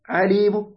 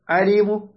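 First: A faint, brief u vowel follows the final m. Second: The same.

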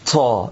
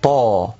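First: The consonant is released with a puff of air. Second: The consonant is released without a puff of air. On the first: The speaker calls it wrong. "لا أن نصدر فيها هذا الهواء طا، هذا خطأ" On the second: The speaker calls it right. "نقول اهدنا الصراط طا"

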